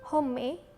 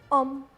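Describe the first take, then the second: First: The initial h is pronounced. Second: The initial h is silent. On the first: The speaker calls it wrong. "bukan home atau homme" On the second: The speaker calls it right. "yang benar itu homme. Karena dalam bahasa Prancis itu hanya nggak dibaca"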